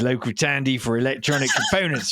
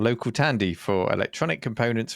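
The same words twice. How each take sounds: First: It is read in a put-on London geezer accent. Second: It is read in the speaker's ordinary accent.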